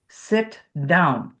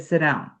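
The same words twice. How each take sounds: First: A crisp T with a small gap before down. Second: The T runs straight into down without a gap. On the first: The speaker calls it right. "there's a little space between" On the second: The speaker calls it wrong. "I'm not going to say"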